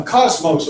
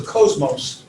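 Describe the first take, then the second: First: Cosmos starting like "coz"; short O pronunciation. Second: Cosmos starting like "coze"; long O pronunciation. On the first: Teacher offering one of two pronunciations, cosmos with a short first O. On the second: Teacher offering the other pronunciation, cosmos with a long first O. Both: Shown as a demonstration. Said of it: "or cosmos".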